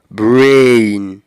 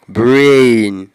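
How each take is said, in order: First: The vowel is a long gliding diphthong. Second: The same.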